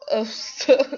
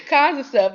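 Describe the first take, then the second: First: Said in the usual way. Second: Laughing through the words, a bit higher and louder. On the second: Real, not acted. Viewer retelling her insults to him, laughing. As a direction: break into a real laugh as you repeat it.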